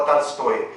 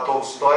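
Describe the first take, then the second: First: "Tolstói" said with a for the first o; "Tolstói" Russian-style, unstressed o turned to a; Russian pronunciation. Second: Said in the usual way. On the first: Shown as a demonstration. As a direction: say "Tolstói" as "Talstóy". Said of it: "eu vou falar Tolstói". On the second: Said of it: "Ao invés de eu falar Tolstói".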